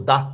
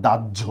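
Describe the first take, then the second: First: "দাহ" read as written, with an h sound; spelling pronunciation. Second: "দাহ্য" with a doubled jjh sound; actual pronunciation. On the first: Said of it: "লিখতেছি কিন্তু দাহ". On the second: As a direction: say "দাহ্য" as daj-jho. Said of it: "উচ্চারণ করতেছি কিন্তু আমরা". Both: Shown as a demonstration.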